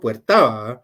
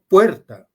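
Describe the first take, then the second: First: The stress is on the last syllable. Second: The stress is on the first syllable. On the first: The speaker calls it wrong. "no digo puerta" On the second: The speaker calls it right. "lleva el acento en la penúltima sílaba"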